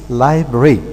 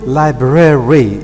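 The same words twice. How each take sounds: First: The word is said with only two syllables. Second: The word is said with all three syllables. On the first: "the way it is normally pronounced" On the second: "in the way it is written"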